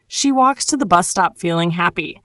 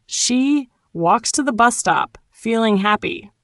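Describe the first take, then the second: First: Said in the usual way. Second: With a smile. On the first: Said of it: "Now say it with a smile". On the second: Shown as a demonstration. Teacher models it for learners, with a smile. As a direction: smile through each spaced-out chunk. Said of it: "say it with a smile".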